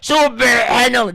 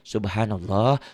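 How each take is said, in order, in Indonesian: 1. Suku kata pertama didorong keluar dengan tekanan. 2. Suku kata pertama diucapkan ringan dan merata. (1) "jangan subhanallah, jangan ditekan" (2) "Biasa aja"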